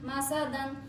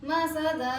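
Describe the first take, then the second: First: The word ends with an n sound. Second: The word ends on a vowel. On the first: The reading continues without a stop. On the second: The reader stops on this word.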